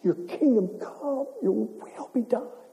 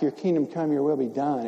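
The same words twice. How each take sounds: First: It is said forcefully, almost screamed. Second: It is said calmly, without force.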